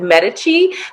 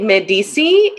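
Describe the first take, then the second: First: The name is said the Italian way. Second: The name is said the French way.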